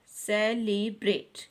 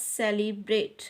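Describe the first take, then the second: First: सेलिब्रेट slowly in three beats, से, ली, ब्रेट; split into syllables. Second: Said in the usual way. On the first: Shown as a demonstration. Teacher counting out three syllables for children, सेलिब्रेट said syllable by syllable. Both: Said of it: "three syllable word".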